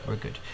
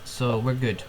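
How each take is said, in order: First: "we're good" repeated much softer; quiet. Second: Said in the usual way. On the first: Real, not acted. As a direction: drop to a soft "we're good".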